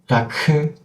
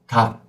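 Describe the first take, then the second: First: The final consonant is released with a breathy keu. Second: The final k is cut off with no release. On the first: The speaker calls it wrong. "you open your throat again to make the second sound" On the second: The speaker calls it right. "we have to stop and cut"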